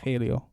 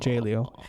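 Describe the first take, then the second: First: The name begins with an H sound. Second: The name begins with an English J sound. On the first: The speaker calls it right. "the J in Spanish is pronounced an H" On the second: The speaker calls it wrong. "Not J-Leo"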